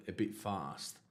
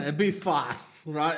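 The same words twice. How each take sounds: First: Said in the usual way. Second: Slow, laughing mock repeat of a bit; laughing, drawn out. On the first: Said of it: "It's like". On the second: Joking back to the officer, slow and laughing. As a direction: laugh through bit fast, slowly. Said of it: "And he started laughing".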